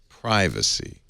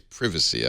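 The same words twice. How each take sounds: First: The first syllable does not sound like privy. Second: The first syllable sounds like the word privy. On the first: The speaker calls it right. "I want to say privacy" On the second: The speaker calls it wrong. "privacy reminds me of the privy, and I don't want to say privacy"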